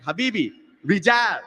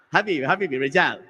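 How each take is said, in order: First: Mildly exasperated mock insistence; a little frustrated. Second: Low-pitched, easygoing mock refusal; unbothered guard. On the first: Security guard refuses the customer again, mildly frustrated. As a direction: imitate a guard getting a little mad. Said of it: "getting a little mad, a little frustrated". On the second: Security guard turns away a confused customer, unbothered. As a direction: imitate a guard, not yet mad. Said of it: "he started getting a little mad".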